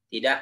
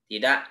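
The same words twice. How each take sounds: Both takes have the same delivery.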